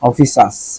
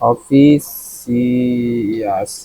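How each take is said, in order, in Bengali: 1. শেষ অংশটি একটি ধ্বনিতে বলা হয়, 'shus'। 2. শেষ অংশটি দুটি ধ্বনিতে বলা হয়, 'see-us'। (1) "কিন্তু অফিস, অফিসাস দেখছেন" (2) "যদি সিয়াস পড়ি তাহলে সহজে মনে রাখা যায়"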